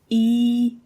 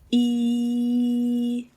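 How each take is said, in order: First: The vowel is held briefly. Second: The vowel is held for longer. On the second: "long in the second position"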